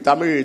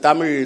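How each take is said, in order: The two takes are said the same way.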